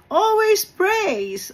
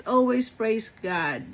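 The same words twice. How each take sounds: First: Much higher, louder, slow with a laugh; laughing exhortation. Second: Said in the usual way. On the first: Real, not acted. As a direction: lift the room up on always.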